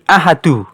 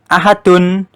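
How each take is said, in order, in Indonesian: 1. Kata ini berakhir pada vokal tanpa n. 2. Kata ini berakhir dengan bunyi n. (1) "menjadi ahadu" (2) "Yang tadinya dibaca ahadun"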